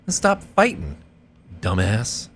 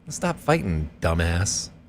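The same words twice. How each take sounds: First: A long pause comes before "dumbass". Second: Only a short pause comes before "dumbass". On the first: The speaker calls it wrong. "and then its own line is like" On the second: The speaker calls it right. "he wouldn't make dumbass its own line"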